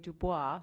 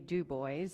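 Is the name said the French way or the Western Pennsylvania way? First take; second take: French; Western Pennsylvania. First: It is said the French way. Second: It is said the Western Pennsylvania way.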